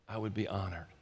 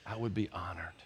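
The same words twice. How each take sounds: First: Again hushed and low, settled and sure; honored reverence. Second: Much softer and lower, humble and hushed; bow your head as you say it; honored reverence. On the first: Pastor repeating his answer to God, hushed. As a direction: let it sink in quietly. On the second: Pastor answering God humbly, hushed reverence. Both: Retold or imitated. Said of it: "I bowed and I said".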